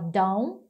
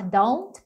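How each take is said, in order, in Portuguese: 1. O som do T final é omitido. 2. O som do T final é claramente pronunciado. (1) "pode falar meio que só don't ... Eles ignoram o som do T" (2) "ao invés de falar don't"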